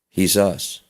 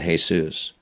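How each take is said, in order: First: The name begins with an H sound. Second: The name begins with a J sound. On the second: "not Jesus"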